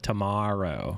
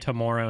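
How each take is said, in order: First: The word has a non-Canadian pronunciation. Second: The word has a Canadian pronunciation. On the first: "instead of tomorrow" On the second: "I also say tomorrow ... that's a Canadianism"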